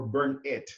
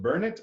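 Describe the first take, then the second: First: Burn It split into burn plus it; Burn It like the verb phrase; name as two words. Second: Burnett run together as BUR-nit; name as one word. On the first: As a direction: say Burn It with a separate, clear IT. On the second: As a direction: say Burnett as a single smooth word. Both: Retold or imitated. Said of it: "how does it pronounce?".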